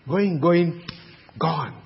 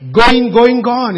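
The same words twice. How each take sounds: First: Said in the usual way. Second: Auction call, louder. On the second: Acted. Preacher cries out auction call.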